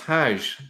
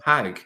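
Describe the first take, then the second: First: The word ends with a soft 'j' sound. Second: The word ends with a hard 'g' sound. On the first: "in in Arabic, it's Hajj" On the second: "if you go to places like Yemen and go to Egypt, they still pronounce that as"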